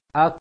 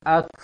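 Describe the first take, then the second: First: "ak" held, then released with a small puff; correct kaf sukun. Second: "ak" with an overlarge burst of air; too much air on kaf. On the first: Teacher showing the right kaf after the wrong one. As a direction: release the k with just a little air. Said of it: "tiupkan angin kecil". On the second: Teacher showing the wrong breathy kaf. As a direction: overblow the k on purpose. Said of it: "Jangan terlalu besar". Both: Shown as a demonstration.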